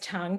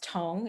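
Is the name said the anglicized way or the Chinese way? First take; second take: anglicized; Chinese. First: The name is said with an anglicized vowel. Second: The name is said with a Chinese vowel. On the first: The speaker calls it wrong. "my maiden name is Tung, T U N G" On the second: The speaker calls it right. "it's actually pronounced Tong in Chinese"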